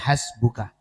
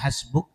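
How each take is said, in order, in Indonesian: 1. Kata ini diakhiri dengan vokal a. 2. Kata ini diakhiri dengan konsonan k. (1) "tulisannya hasbuka" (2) "dibacanya hasbuk"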